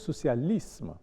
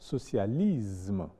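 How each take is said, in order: First: The s is said with an s sound. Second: The s is said with a z sound. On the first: The speaker calls it right. "mais plutôt socialisme" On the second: The speaker calls it wrong. "ce qui évite de dire"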